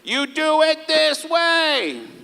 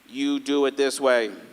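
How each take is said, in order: First: It is said in a raised, louder voice. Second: It is said at a normal volume. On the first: The speaker repeats themselves more forcefully. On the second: The speaker simply repeats themselves.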